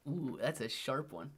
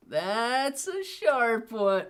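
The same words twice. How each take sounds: First: Said in the usual way. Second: High, slowly stretched THAT'S A SHARP ONE; drawn-out exclamation. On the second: Pretend. Same words repeated, drawn out high.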